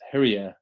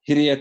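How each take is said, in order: First: The i vowels sound like English vowels. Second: The i vowels sound like Māori vowels. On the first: The speaker calls it wrong. "pronouncing the I's as an English vowel, not a Māori vowel" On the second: The speaker calls it right. "if I get it right"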